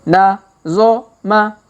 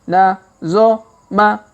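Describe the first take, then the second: No difference in how they are said.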